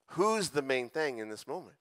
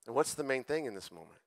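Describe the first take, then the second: First: "Who's" lifted and stretched at the start; stress on WHO'S. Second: Said in the usual way. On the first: Real, not acted. Pastor correcting his question toward Jesus, stress on "Who's". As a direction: lean on the word "Who's", then ease off.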